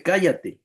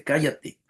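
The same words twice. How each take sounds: First: "Cállate" said higher as a firm order; authoritative command. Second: Said in the usual way. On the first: Retold or imitated. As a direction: snap it as Jesus showing his authority. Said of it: "mostrando Jesús su autoridad". ("Cállate" con autoridad, más agudo) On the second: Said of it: "y le dice".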